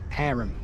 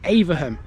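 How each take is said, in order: First: The name is said in a shorter, local form. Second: The name is read out as it is spelled. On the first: This is how the people who live there say it. The speaker calls it right. "The locals out here call this place Airham" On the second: An outsider would guess it from the spelling. The speaker calls it wrong. "which you might think is Averham or Averham, but it's not"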